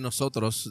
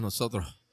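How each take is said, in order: First: The s sounds are clear, standard s sounds. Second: The s sounds become breathy, Puerto Rican h sounds.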